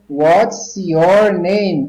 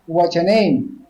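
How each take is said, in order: First: The words are said slowly and kept apart. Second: The words are said quickly and run together.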